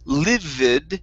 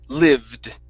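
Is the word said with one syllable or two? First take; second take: two; one. First: The word has two syllables, sounding the e. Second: The word has one syllable, with a silent e. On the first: Someone was extremely angry. The speaker calls it wrong. "So you're pronouncing this e" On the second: Someone dwelt there. The speaker calls it right. "the e should not be pronounced"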